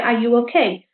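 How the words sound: The question is said in a caring tone. The speaker shows concern for the listener. "You sound like you're a bit more caring"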